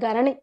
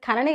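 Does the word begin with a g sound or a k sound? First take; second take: g sound; k sound. First: The word begins with a g sound. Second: The word begins with a k sound. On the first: The speaker calls it right. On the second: The speaker calls it wrong. "అది ఖనని కాదు"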